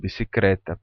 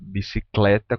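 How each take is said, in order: First: The consonant after the last c is an R. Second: The consonant after the last c is an L. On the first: This is a popular, nonstandard form. "como bicicleta" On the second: This is the standard form. "pronunciam na língua popular bicicleta como"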